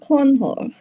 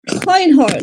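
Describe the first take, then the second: First: The first syllable sounds like 'corn'. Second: The first syllable sounds like 'coin'. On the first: The speaker calls it wrong. "not Cornhor" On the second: The speaker calls it right. "not Cornhor"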